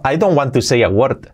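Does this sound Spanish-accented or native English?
Spanish-accented. It is pronounced with a Spanish-style accent. The speaker calls it wrong. "mal dicho"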